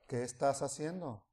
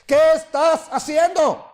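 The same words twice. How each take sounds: First: It is said quietly and slowly. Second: It is said loudly and strongly.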